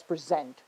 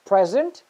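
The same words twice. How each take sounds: First: PreSENT, stressed on the second syllable. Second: PREsent, stressed on the first syllable. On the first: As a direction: say "present" as the verb, weight on "sent". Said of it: "you can also pronounce this word as". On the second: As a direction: say "present" as the noun, punching "pre". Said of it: "you can pronounce this word as present". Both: Shown as a demonstration.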